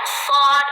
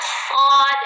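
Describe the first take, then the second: No difference in how they are said.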